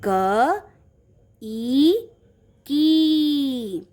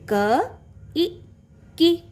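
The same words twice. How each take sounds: First: क, ई, की spaced out, ई and की stretched long; long vowel blend. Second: क, ई, की spaced out, ई and की kept brief; short vowel blend. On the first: Teacher blending for children, long drawn-out ई and की. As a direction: sound out क, ई, की, holding the final vowel. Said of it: "बड़ी ई की मात्रा का sound कैसा होता है". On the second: Teacher repeating the blend for children, short ई and की. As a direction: sound out क, ई, की, ending short. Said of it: "short sound". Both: Shown as a demonstration.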